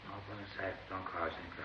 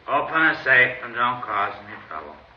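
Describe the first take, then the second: First: It is said fairly quietly. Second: It is said more loudly.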